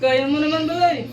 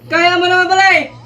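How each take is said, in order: First: It is said in a sarcastic tone. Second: It is said in an angry tone.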